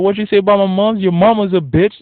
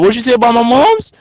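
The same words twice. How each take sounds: First: Mock angry comeback. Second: Loud, high, offended retort; a hammed-up touchy guy taking offense; angry mock challenge. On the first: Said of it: "They'd be like". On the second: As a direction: bark it back like you're ready to fight. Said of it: "they'd be like".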